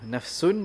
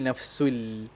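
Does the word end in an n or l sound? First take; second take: n; l. First: The word ends with an n sound. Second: The word ends with an l sound. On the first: This is the original form of the word. "asalnya nafsun" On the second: The n merges into the following l. "jadi nafsul"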